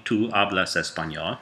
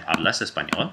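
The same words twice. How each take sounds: First: Said in the usual way. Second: "Hablas español?" rising at the end; question intonation. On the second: Shown as a demonstration. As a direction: ask "Hablas español?" with the pitch lifting on "español". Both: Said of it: "You can make a question just by saying".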